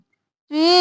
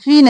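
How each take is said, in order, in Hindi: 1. 'fi' में स्वर लंबा खींचा जाता है। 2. 'fi' में स्वर छोटा काटा जाता है। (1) "या मद्दा है खींचेंगे" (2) "यहाँ पर हम फी नहीं करेंगे"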